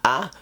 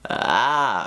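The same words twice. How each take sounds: First: The sound starts abruptly with a hard attack. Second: The sound starts gently, easing in with fry. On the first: "that's me giving a harder vocal onset" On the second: "a more gentle onset ... I'm leading with my vocal fry"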